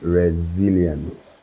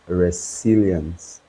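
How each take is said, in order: First: The middle consonant is a buzzing Z sound. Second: The middle consonant is a hissing S sound. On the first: The speaker calls it right. "it is actually resilience, right? So the S is sounded as a Z" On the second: The speaker calls it wrong. "Many of us make the mistake of, of pronouncing it as resilience"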